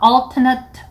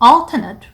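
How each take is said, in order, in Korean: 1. 형용사 발음입니다. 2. 형용사 발음입니다.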